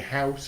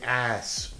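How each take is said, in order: First: It starts with h and a full vowel. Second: It drops the h and shortens the vowel. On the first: "I don't say house" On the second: "I say ass"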